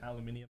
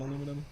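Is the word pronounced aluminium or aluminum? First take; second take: aluminium; aluminum. First: It is said with five syllables, aluminium. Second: It is said with four syllables, aluminum. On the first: The speaker calls it right. "I mean aluminium" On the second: The speaker calls it wrong. "You got it wrong on the first one"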